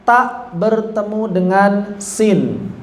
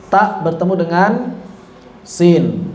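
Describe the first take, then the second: No difference in how they are said.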